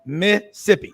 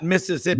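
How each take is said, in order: First: "Mississippi" said short as "Missippi", middle syllable dropped; local two-syllable Mississippi. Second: "Mississippi" spelled out in full as "Miss-iss-ipp-i", every syllable sounded; full four-syllable Mississippi. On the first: Host plugging the station, says the state the local way. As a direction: squeeze "Mississippi" into "Miss-ippi". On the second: Host correcting the name, gives the outsider's long version. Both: Shown as a demonstration. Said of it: "It's two syllables and not Mississippi".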